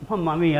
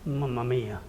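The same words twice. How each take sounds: First: It is said in a pleading tone. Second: It is said in a sad tone. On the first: I need some help here. "I'm seeking help" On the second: Something sad has happened. "it could also be used in a sad situation"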